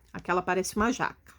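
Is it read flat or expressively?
flat. It is read flat, like a plain statement.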